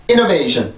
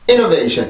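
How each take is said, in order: First: Stress hits the start only, then drops flat. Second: Stress hits the start only, then drops flat.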